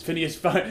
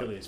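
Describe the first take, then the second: First: "Phineas" said with an N, FIN-ee-us; "Phineas Fogg" with an N like the cartoon; wrong name. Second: "Phileas" said with an L, FIL-ee-us; "Phileas" with a clear L sound, not N; correct name. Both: Shown as a demonstration. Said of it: "Sorry, that was the cartoon".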